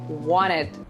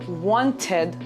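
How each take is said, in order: First: The T after the N is dropped. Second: The T after the N is clearly pronounced. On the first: The speaker calls it right. "you say wanted" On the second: The speaker calls it wrong. "Instead of wanted"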